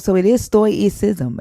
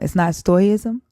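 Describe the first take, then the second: First: The C sound is pronounced in the word. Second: The C sound is left out of the word. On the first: The speaker calls it right. "You pronounce the C?" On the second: The speaker calls it wrong. "I've always heard people pronounce it without the C"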